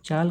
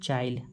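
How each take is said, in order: First: A long a runs straight into l. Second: An i sound is inserted before l.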